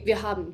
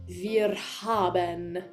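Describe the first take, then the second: First: The final syllable is swallowed, as in casual speech. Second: Every syllable is voiced and the R is rolled.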